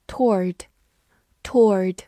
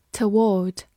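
First: "toward" as one syllable, like "tord", with an r; American pronunciation. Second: Said in the usual way. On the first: Shown as a demonstration. Teacher giving learners the alternative "toward", American one-syllable pronunciation. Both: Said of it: "或者美式发音".

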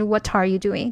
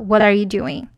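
First: "What are you doing？" with the T of "What" flowing into "are"; linked reading. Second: "What are you doing？" with "What" and "are" kept apart; unlinked reading. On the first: Teacher showing students the right linked way, smooth. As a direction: run "What are" together as one sound, voiced flap. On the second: Teacher showing students the wrong unlinked way, word by word. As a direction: say "What" and "are" as separate words, what falling. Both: Shown as a demonstration. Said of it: "哎，不是".

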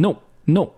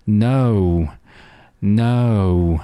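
First: No chopped off abruptly; too-short vowel. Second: No with a long, full 'ou'; lengthened diphthong. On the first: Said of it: "因为它太短了". (no 元音读得太短) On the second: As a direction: draw out the vowel in no. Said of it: "读得稍稍长一点". (no 双元音读长一点) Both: Shown as a demonstration.

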